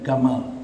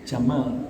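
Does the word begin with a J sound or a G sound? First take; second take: G sound; J sound. First: It begins with a hard G, Egyptian style. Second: It begins with a soft J sound, standard Arabic.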